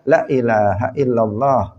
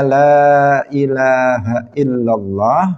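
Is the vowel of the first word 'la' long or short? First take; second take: short; long. First: The vowel of the first 'la' is short. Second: The vowel of the first 'la' is long. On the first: The speaker calls it wrong. "Misalnya la dibaca pendek" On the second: The speaker calls it right. "harusnya la ilaha illallah"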